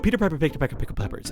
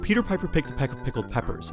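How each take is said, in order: First: It is said very fast. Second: It is said slowly.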